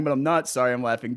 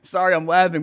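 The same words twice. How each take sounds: First: Cheeky, not hammered on not; stress on not. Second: Said in the usual way. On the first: Shown as a demonstration. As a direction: hit not hard in "I'm not sorry", quicker.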